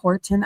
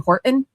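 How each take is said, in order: First: The middle T is clearly pronounced. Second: The middle T is dropped. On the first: The speaker calls it right. "instead of Horton" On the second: The speaker calls it wrong. "I would say Horton"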